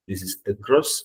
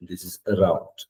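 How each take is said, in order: First: Across said as uh-kross with a light rise; correct across. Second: Around said softly as uh-round; correct around. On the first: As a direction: model across. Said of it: "You shouldn't say across". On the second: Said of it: "You shouldn't say around". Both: Shown as a demonstration.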